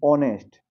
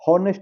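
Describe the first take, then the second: First: The word begins with a vowel, h silent. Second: The word begins with a sounded h. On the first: The speaker calls it right. "एच silent है यहाँ पे" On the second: The speaker calls it wrong. "हॉनेस्ट नहीं"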